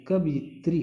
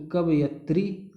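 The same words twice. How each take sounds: First: कवयित्री with a short i, "yi" before "tri"; correct pronunciation. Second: कवयत्री with plain "ya" before "tri", no short i; wrong spelling pronounced. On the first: Teacher correcting the misspelt word for students, right form sounded out. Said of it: "कवयित्री होता है". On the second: Teacher showing students the misspelt word, wrong form sounded out. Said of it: "कवयत्री गलत है". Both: Shown as a demonstration.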